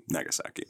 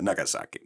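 First: Nagasaki breathed out without voice; a hushed, ominous Nagasaki; whispered. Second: Said in the usual way. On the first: Shown as a demonstration. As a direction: whisper Nagasaki like a dark secret.

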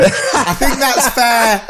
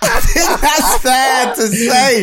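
First: Laughing tease. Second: Laughing shout. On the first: Teasing co-host, laughing. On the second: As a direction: shout the repeat through a laugh, higher. Teasing co-host, shouts the repeat. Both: Real, not acted.

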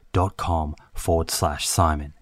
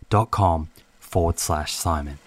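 No difference in how they are said.

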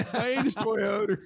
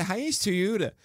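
First: Put-on Hyannis Toyota in a slow, higher Baltimore accent, Toyota as Toyoda with an R at the end; drawn-out Baltimore ad voice, half laughing. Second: Put-on Hyannis Toyota in a Baltimore accent, Toyota said as Tuuda. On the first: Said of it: "the Baltimore accent". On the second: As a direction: mimic the Baltimore ad man saying Hyannis Toyota. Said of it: "But he would always say, ... What is this accent".

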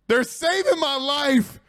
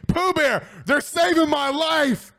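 First: Slower and weightier, stressing saving; slower heartfelt repeat. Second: High, bright thankful outburst; delighted relief. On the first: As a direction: let it sink in, slowly leaning on saving. Repeats thanks more slowly. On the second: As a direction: cry out in real relief at the fans. Fans vote not to shave. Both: Real, not acted.

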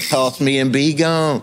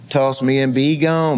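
First: Slow, deliberate gun's voice. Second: Gun's voice, slow. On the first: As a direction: speak slowly as the talking gun. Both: Retold or imitated. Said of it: "the gun talking to him".

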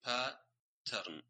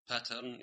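First: Pattern slowly, stress on the first syllable; correct pronunciation. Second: Pattern as commonly said in Saudi, stress on the second syllable; Saudi mispronunciation. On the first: Shown as a demonstration. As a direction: say pattern the proper English way, slow and clear. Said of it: "يعني هي pattern". (pattern بنطق صحيح ونبرة على المقطع الأول) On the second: Retold or imitated. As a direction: imitate the local way of saying pattern. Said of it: "يقولون pattern". (pattern بالنطق الشائع الغلط في السعودية)

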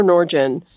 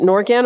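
First: Norgen with a soft G, "NOR-jen". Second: Norgen with a hard G, "NOR-gan"; first Norgen as "NOR-gan", G as in "gap". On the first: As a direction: say Norgen with the G of "gem". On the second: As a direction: say Norgen with the G of "get". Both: Shown as a demonstration. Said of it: "Is it Norgen or Norgen".

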